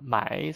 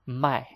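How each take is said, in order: First: The syllable has the third tone. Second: The syllable has the fourth tone, strong and short. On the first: It means to buy. "third tone is to buy" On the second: It means to sell. "fourth tone"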